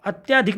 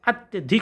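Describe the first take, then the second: First: अत्यधिक said "atyaadhik", with long aa; wrong long vowel. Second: अत्यधिक said "at-ya-dhik", slightly separated; correct short vowel. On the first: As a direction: stretch the middle of अत्यधिक. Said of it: "नहीं होता है". (अत्यधिक में त्या लंबा) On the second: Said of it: "होता है". (अत्यधिक में छोटा त्य) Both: Shown as a demonstration.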